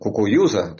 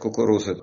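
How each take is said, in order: First: The second r is replaced by a y-like sound. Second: The word has a clear r sound throughout. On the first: The speaker is marked as an outsider. "а если ты говорил, как еврей, «кукуюза»" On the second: The speaker passes as one of the locals. "если ты мог сказать «кукуруза, иди»"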